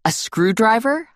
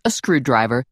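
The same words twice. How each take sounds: First: Slow, rising disbelief on screwdriver; incredulous question. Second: Said in the usual way. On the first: Acted. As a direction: ask it like you can't believe it. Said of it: "I asked her".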